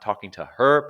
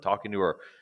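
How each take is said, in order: First: The h at the start of her is pronounced. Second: The h at the start of her is dropped. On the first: The speaker calls it wrong. "not talking to her" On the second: The speaker calls it right. "but talking to her"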